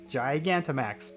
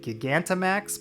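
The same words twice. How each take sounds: First: The word begins like the word 'gigantic'. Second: The word begins like the word 'giga'. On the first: The speaker calls it right. "apparently it's more like gigantic" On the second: The speaker calls it wrong. "I've always kind of thought of it as Giga, like Gigantamax"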